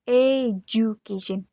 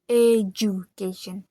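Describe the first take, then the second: No difference in how they are said.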